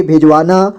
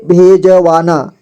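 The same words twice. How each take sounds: First: Said in the usual way. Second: भेजवाना slowly split, with ज given a vowel; syllable by syllable. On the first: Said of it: "इसे पढ़ेंगे भेजवाना". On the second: Shown as a demonstration. Teacher breaking down भेजवाना for learners, slowly syllable by syllable. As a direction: sound out भेजवाना slowly, piece by piece. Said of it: "जोड़ जोड़ करके".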